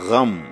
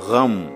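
First: It starts with a guttural gh sound. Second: It starts with a guttural gh sound.

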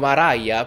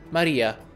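First: The name is said with an English-style pronunciation. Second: The name is said with an Italian pronunciation.

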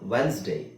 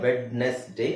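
First: The d and e are silent, in two syllables. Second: Every letter is sounded, in three syllables. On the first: The speaker calls it right. "ಅದನ್ನು ನಾವು ವೆನ್ಸ್ ಡೇ" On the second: The speaker calls it wrong. "Common ಆಗಿ ಎಲ್ಲರೂ ಮಿಸ್ಪ್ರೊನೌನ್ಸ್ ಮಾಡ್ತಾರೆ ವೆಡ್ನೆಸ್ ಡೇ ಅಂತ"

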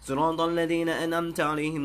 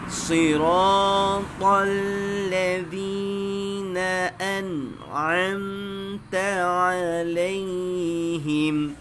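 First: It is recited quickly. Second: It is recited slowly, sound by sound. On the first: It is for reviewing memorized verses. "baca bab cepat" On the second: It is for learning to check each letter's articulation. "Tahqiq baca baik seekor-seekor"

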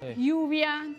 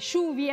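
First: It is said the way other regions say it. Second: It is said the Buenos Aires city way. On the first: "como se pronuncia en otros lugares" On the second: "nosotros acá en Capital pronunciamos"

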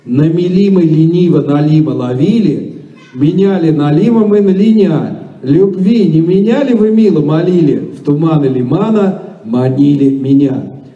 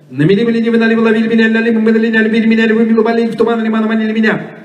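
First: It is said slowly. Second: It is said very fast.

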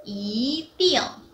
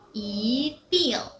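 No difference in how they are said.

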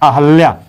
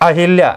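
First: No vowel follows the 'h' sound. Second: An 'i' vowel follows the 'h' sound. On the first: The speaker calls it right. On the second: The speaker calls it wrong.

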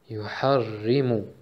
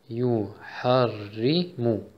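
First: The word is said at medium pace. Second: The word is said slowly.

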